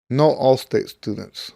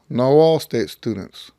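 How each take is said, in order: Both takes have the same delivery.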